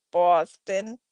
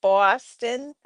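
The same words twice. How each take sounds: First: A quick Boston accent on "Boston", the vowel rounded and the r dropped. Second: Said in the usual way. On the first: Shown as a demonstration. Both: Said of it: "I can do Boston".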